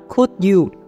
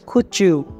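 First: The d and 'you' are said separately. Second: The d and 'you' blend into a 'ch' sound. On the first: "các bạn hãy nói là could you" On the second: "thì cũng có thể nói là"

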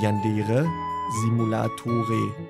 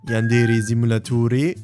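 First: The name is said with full German pronunciation. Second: The name is said without German pronunciation. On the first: "die sprechen das natürlich auf Deutsch komplett so aus" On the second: "Es gibt einige, die sagen Yandere Simulatore, wie zum Beispiel ich"

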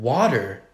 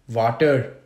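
First: It is said in a plain American accent. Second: It is said in an Indian accent, W as V.

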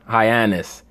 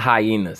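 First: It does not sound like the animal word. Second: It sounds like the animal word 'hyenas'. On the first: The speaker calls it right. "It's Hyenas, brother" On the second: The speaker calls it wrong. "Hyenas is what you see on National Geographic"

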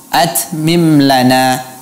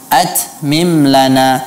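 First: The 't' has a hissing release. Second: The same.

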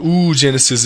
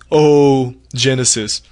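First: The start is said as one vowel sound. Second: The start is said as two vowel sounds. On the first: The speaker calls it wrong. "we don't say it oogenesis" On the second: The speaker calls it right. "it's oogenesis"

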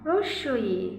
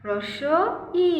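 First: The word is said smoothly as one unit. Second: The word is split with a break between parts.

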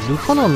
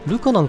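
First: The pitch pattern matches Osaka 'uso yan'. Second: The pitch pattern differs from Osaka 'uso yan'. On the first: This is the official pronunciation. The speaker calls it right. "ルカナンなんですね。あの大阪弁の嘘やんと一緒" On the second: This is how it was long assumed to be said. The speaker calls it wrong. "ルカなんかと思ってた、ずっと"

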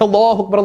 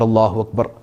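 First: It is said loudly and forcefully. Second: It is said quietly and gently. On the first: The speaker calls it wrong. "ഉറക്കെ ... എന്ന് വിളിക്കരുത്" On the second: The speaker calls it right. "പതിയെ"

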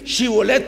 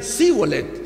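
First: The word begins with an 'sh' sound. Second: The word begins with a plain 's' sound. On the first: "no podían ellos decir Shibolet" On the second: "sin H"

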